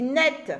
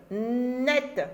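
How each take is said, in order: First: Said in the usual way. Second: "net" with a long, held N at the start; held first sound. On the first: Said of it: "qu'est-ce que j'entends dans net". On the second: Shown as a demonstration. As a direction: hold the n of "net" before the vowel. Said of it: "Je commence par ne".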